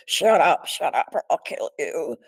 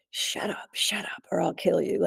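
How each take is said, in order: First: Louder, harsher retelling of the intruder; harsh threat. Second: Voiceless, menacing whisper of the intruder; whispered threat. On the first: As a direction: bark it out as the attacker. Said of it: "And it was really like". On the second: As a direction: threaten her under your breath. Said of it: "he kept saying". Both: Retold or imitated.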